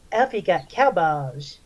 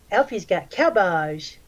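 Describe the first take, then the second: First: Lightly voiced creepy drawl, slow; a hint of a weird leering guy, slowed down. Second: Creepy guy voice. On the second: Retold or imitated. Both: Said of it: "this is the voice he used".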